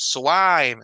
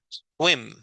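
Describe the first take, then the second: First: The vowel is drawn out long. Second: The vowel is clipped short. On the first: The speaker calls it wrong. "no es swime" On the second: The speaker calls it right. "sino es swim"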